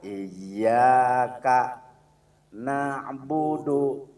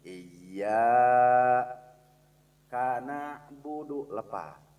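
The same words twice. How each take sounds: First: Iyyaka na'budu said as one phrase, slow and loud; correct joined recitation. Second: Iyyaka and na'budu cut apart by a pause; wrongly split recitation. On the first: Teacher shows the right way to recite. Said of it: "satu kalimat itu adalah". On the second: Teacher shows the mistake to avoid. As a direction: break the phrase after Iyyaka, wrongly. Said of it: "jangan sampai begini". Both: Shown as a demonstration.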